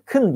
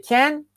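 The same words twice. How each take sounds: First: "kın": unstressed can, vowel squeezed to a schwa; weak form of can. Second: Said in the usual way. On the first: Shown as a demonstration. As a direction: say "kın" as a reduced "can", with a short dull vowel. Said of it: "kın diye okunur". ("kın" diye, zayıf ve kısa okunan can) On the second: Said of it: "can okunurken kın diye okunur".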